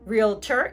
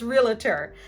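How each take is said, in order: First: The word has two syllables, no middle vowel. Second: An extra schwa is added in the middle. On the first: "Realtor is a two-syllable word" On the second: "adding that extra schwa sound right in the middle"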